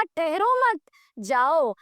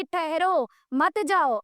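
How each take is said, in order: First: Slow, ठहरो मत joined, a break before जाओ; telling a relative to leave. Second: Slow, with a break after ठहरो, मत जाओ kept together; telling a friend to stay. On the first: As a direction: pause after मत, sending a relative off. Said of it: "और रिश्तेदार से कहा". (ठहरो मत एक साथ, फिर रुककर जाओ) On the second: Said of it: "दोस्त से कहा कि". (ठहरो पर रुककर, मत जाओ एक साथ) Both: Acted.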